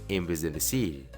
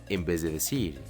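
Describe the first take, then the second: The two takes are said the same way.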